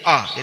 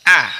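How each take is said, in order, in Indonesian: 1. Vokal ini tebal dan membulat, seperti o. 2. Vokal ini tipis, diucapkan dengan bibir tersenyum. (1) "kalau nggak senyum dulu nanti jadinya O, ... dibaca uh, tebal" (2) "tersenyum dulu, senyum"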